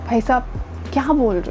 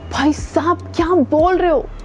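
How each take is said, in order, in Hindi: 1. आवाज़ मायूस और निराश लग रही है। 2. आवाज़ हैरान और चौंकी हुई लग रही है। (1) "थोड़े से डिसअपॉइंटेड" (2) "शॉकिंग तरीके से बोलो"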